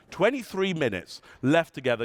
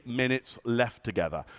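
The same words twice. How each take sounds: First: Said in the usual way. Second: Low, heavy delivery. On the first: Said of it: "Listen to the tonality of your voice". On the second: Shown as a demonstration. Speaker demonstrating a gloomy countdown to the audience, lower and softer. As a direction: lower and softer, dropping at the end. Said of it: "how you start to judge me".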